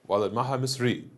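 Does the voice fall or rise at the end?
fall. The voice falls at the end. It states a fact. "That's declarative"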